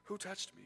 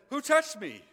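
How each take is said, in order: First: Quieter, gentle asking; Jesus quietly seeking the woman; soft tender question. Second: High, loud call; Jesus calling out in the crowd, loud and high; loud searching question. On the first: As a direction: ask it softly, almost to himself. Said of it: "he says". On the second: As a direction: shout it out over the crowd. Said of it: "And Jesus says". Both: Acted.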